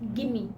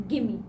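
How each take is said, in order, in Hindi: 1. शब्दों को जोड़कर gimme बना दिया जाता है। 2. शब्दों को जोड़कर gimme बना दिया जाता है।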